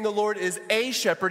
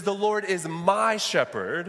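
First: Said in the usual way. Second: Slow, leaning hard on "my" in "The Lord is my shepherd"; preacher to congregation, slowly pressing on "my"; stress on my. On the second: Shown as a demonstration. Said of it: "Do you see that there?".

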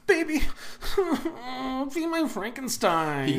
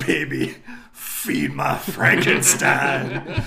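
First: A laughing, corrected Joaquin Phoenix line; Joaquin Phoenix impression. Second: Terrible Joaquin Phoenix impression. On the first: Friend correcting a bad impression, laughing Joaquin Phoenix voice. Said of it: "It's more like". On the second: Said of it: "That's a terrible impression of Joaquin Phoenix".

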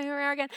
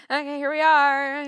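First: Softer, deflated here we are again; softer resigned mutter; weary aside. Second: Louder mock-theatrical here we are; mock-grand resignation, louder; resigned announcement. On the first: Retold or imitated. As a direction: drop it under your breath as a weary afterthought. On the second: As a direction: announce your doom with a grand sigh. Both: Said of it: "And I'm like".

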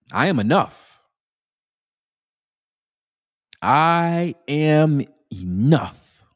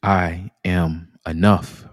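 First: Higher and stretched out, with energy; energetic affirmation. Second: Calm affirmation. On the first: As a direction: put some energy into the affirmation. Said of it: "use a little energy now". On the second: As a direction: say it slowly and calmly to yourself. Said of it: "And simply repeat after me". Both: Shown as a demonstration.

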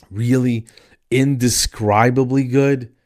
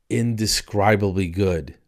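First: Louder, drawn-out disbelieving echo; incredulous questioning. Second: Said in the usual way. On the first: Acted. Customer doubts the chicken place's motto, incredulous. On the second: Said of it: "their motto is".

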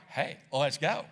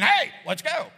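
First: Casual friendly call; relaxed, lower "Hey, let's go"; inviting. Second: Higher, louder "Hey, let's go"; much louder pushy "Hey, let's go"; barking order. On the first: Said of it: "more like". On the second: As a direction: bark it as a demand. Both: Retold or imitated.

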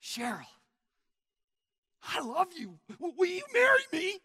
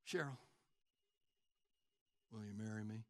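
First: High, loud, building impassioned proposal; intense pleading. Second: Low, quiet, deadpan proposal; no intensity. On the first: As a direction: propose with all your heart, ending very high. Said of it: "Folks, it makes a difference". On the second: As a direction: propose as if you barely care. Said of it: "the intensity of your request makes a difference". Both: Acted.

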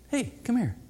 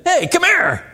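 First: Gentle, quiet hey come here; hushed friendly beckon; soft call. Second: High, loud commanding hey come here; loud demanding call; sharp loud call. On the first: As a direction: call a friend over softly. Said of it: "there's a little different than saying that". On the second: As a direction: bark a summons across the room. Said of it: "you hear the difference in those two things". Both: Shown as a demonstration.

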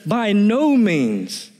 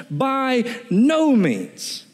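First: Slow "By no means" with "no" hit hard; a touch of outrage on "no"; stress on NO. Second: Slower, with "no" pushed up high; mock-indignant "By no means"; outraged refusal. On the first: Preacher voicing Paul's outrage to the church, slow and emphatic. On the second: Preacher acting Paul's outraged answer, higher and slower. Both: Shown as a demonstration. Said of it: "It carries a sense of outrage".

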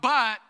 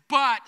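First: Loud, punchy BUT; shouted but again. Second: Loud, punchy BUT; shouted but. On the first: Preacher leading the congregation's shout, loud. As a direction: call "But" out with the crowd. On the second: Preacher rousing the crowd to shout, loud. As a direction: bark "But" out to the room. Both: Shown as a demonstration. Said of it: "someone shout".

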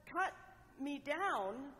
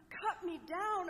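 First: Said in the usual way. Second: Higher and louder, fearful echo of cut me down; frightened repeat. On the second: A narrator's reading. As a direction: repeat it in rising alarm. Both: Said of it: "A trembling fear shook Bamboo".

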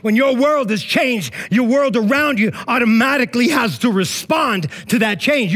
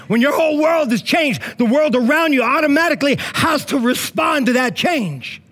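First: Said in the usual way. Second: Raised, forceful repeat of the line; mock angry preaching. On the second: Pastor repeating the line to the congregation, mock angry. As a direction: hit it hard like you're mad, then laugh it off. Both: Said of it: "Sounds like I'm all angry".

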